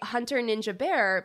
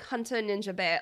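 First: It is said in the speaker's ordinary American accent. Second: It is said in an Australian accent, weak R.

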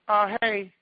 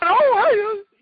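First: It sounds flat and unenthusiastic. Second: It sounds bright and warm.

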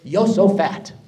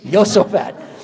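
First: The name begins with a Y sound. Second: The name begins with a Y sound.

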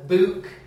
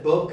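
First: The vowel is a long oo, a northern accent. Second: The vowel is short, a standard accent.

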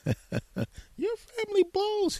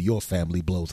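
First: It is said in a put-on high voice. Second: It is said in his normal speaking voice. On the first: Someone else is speaking. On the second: The speaker himself is talking back.

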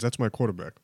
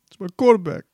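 First: It is said plainly, without emotion. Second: It is said with tearful, heightened emotion.

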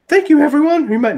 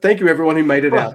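First: It is said in a put-on voice. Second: It is said in his normal voice.

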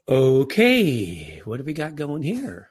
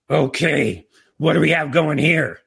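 First: The voice sounds calm and relaxed. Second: The voice sounds angry and confrontational. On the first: The speaker is open and curious about the situation. The speaker calls it right. "my daughters appreciated the first tone" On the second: The speaker is upset and confronting the situation. The speaker calls it wrong. "the message to the audience is completely different"

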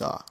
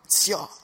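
First: The word is said plainly. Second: The word is said with strong emphasis.

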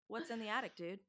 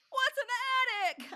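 First: It is said in a relaxed, chill way. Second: It is said in a tense, serious way.

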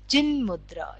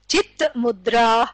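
First: The first part ends with an n sound. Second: The first part ends with a t sound. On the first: "when it combines in a sandhi, it is cin-mudra" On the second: "This is what is called chit-mudra"

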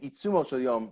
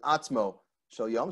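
First: The first word is pronounced itzumo, three syllables. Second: The first word is pronounced atzmo, two syllables. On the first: The speaker calls it wrong. "people often mispronounce this Rambam as saying" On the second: The speaker calls it right. "The Rambam says"

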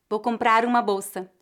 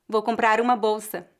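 No difference in how they are said.

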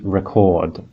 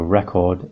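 First: It is pronounced as the verb form. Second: It is pronounced as the noun form. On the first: It names an action. "Record is a verb, an action" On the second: It names a thing you listen to. "record, the object"

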